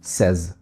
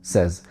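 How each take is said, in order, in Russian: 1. Гласный звучит как гласный в 'bed'. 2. Гласный звучит как гласный в 'bed'.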